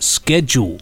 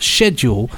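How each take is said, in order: First: It is said with an American pronunciation. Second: It is said with a British pronunciation. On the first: The speaker calls it wrong. "pronounced in the American way as schedule" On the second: The speaker calls it right. "in British English, the word is pronounced schedule"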